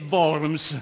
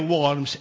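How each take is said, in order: First: The name is pronounced with German sounds. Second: The name is pronounced with English sounds. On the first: The speaker calls it right. "è Worms" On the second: The speaker calls it wrong. "pronunciamo queste parole tedesco sempre all'inglese. Non è Worms"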